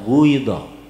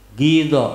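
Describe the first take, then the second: First: The first vowel is lip-rounded. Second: The first vowel is plain.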